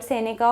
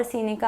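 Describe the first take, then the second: First: Seneca with an "eh" in the first syllable; alternative pronunciation. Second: Seneca with a long "ee" in the first syllable; alternative pronunciation. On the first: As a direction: say Seneca as SEH-neh-ka. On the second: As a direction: say Seneca as SEE-nih-ka. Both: Shown as a demonstration. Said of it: "I'm not sure about the pronunciation".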